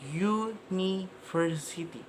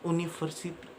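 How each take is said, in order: First: The word begins with a y sound. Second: The word begins with a plain vowel sound. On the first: The speaker calls it right. "dia startnya dengan huruf Y" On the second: The speaker calls it wrong.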